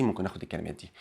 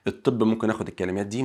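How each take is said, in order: First: "ممكن اخد الكلمات دي" repeated much softer and lower. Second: Said in the usual way. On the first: Shown as a demonstration. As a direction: drop to a quiet aside. Teacher repeats phrase, much softer.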